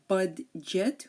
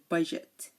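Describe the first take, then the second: First: A distinct D sound is pronounced. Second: No separate D sound is pronounced. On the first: The speaker calls it wrong. "We don't say budget" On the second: The speaker calls it right. "we say budget"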